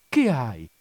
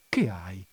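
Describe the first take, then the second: First: Firmer, more pressing repeated question; insistent bewildered concern. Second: Bewildered concern. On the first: Husband asking his crying wife, more urgent bewilderment. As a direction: press the question with a sharp fall. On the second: Husband finding his wife in tears, subdued bewilderment. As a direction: ask it low, taken aback by the tears. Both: A narrator's reading. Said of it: "stupito e confuso nel vedere che sua moglie piangeva".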